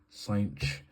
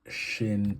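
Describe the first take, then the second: First: It sounds like the word cinch. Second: It sounds like the word shin. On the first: "I've heard the pronunciation cinch" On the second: "I've heard shin"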